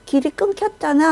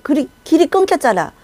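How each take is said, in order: First: A sharp turn toward the follower; mild angry cry. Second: High, raised angry complaint. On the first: Leader spinning round at the broken path, a touch of anger. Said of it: "하면서 확 돌았어요". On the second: Leader turning on his follower, angry high complaint. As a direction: fling the blame back at the follower. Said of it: "갑자기 화가 난 거야". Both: Retold or imitated.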